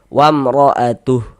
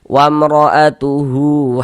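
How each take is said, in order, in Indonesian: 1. Kata itu berakhir pada bunyi h saja. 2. Hu terakhir dibaca panjang. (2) "Hu dibaca dengan panjang dua harokat"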